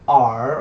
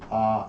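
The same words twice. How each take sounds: First: The R is said slowly and carefully enunciated. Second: The R is said loosely in an Australian accent. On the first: "I'm trying to enunciate it" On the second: "if I say it like an Australian"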